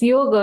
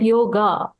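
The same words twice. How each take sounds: First: The final vowel is a short 'uh' sound. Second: The final vowel is a long 'ah' sound. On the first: This is how it ends in Sanskrit. The speaker calls it right. "So it's yoga" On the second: This is how Western cultures say it. The speaker calls it wrong. "not yoga"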